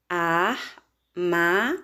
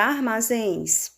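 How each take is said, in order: First: "armazéns" very slow, split as ar... ma... zéns; syllable by syllable. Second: Said in the usual way. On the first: Shown as a demonstration. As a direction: break "armazéns" into spaced syllables. ("armazéns" bem devagar, sílaba por sílaba) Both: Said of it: "Separando as sílabas".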